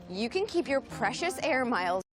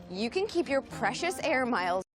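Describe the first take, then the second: The two takes are said the same way.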